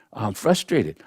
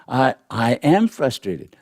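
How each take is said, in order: First: Said in the usual way. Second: Am pressed and held, falling after it; stress on am. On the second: Shown as a demonstration. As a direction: lean into am, owning the feeling. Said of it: "Not I'm watching frustration go by".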